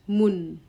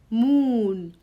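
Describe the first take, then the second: First: The vowel is short. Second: The vowel is long. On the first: The speaker calls it wrong. "not moon" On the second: The speaker calls it right. "it's give us long sound"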